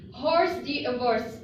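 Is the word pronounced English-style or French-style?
English-style. It is read out with English-style spelling sounds. The speaker calls it wrong. "It's it doesn't pronounce like this in uh, French"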